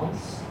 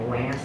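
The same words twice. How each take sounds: First: The name has a British broad 'ah' vowel. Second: The name has an American flat 'a' vowel. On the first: This is how the speaker's mother wants the name said. "and not Lance" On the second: This is how people usually say the name. "everyone calls me Lance"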